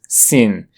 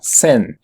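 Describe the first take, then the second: First: The word is said with an English pronunciation. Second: The word is said with a French pronunciation. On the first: "con la pronunciación del inglés scene" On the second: "En francés se lo pronuncia como scène"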